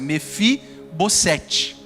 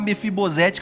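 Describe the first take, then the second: First: The consonant before the ending sounds like s. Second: The consonant before the ending sounds like z. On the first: The speaker calls it right. "O nome de Mefibosete é assim a pronúncia" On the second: The speaker calls it wrong. "eu vou soar o S com um som de Z"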